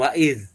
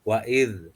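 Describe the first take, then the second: First: The final consonant is a z sound. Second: The final consonant is a voiced dh sound. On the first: The speaker calls it wrong. "bukan wa'iz ya" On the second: The speaker calls it right. "Pertama di wa'id"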